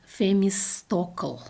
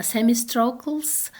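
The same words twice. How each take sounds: First: Themistocle said "Femistokl", f for th; Russian rendering. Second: Themistocles with initial th and final s; English original. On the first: Lecturer showing the Russian version, Femistokl. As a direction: say "Themistocle" with initial f, no final s. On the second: Lecturer giving the original Greek name, English version. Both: Shown as a demonstration. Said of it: "is translated like".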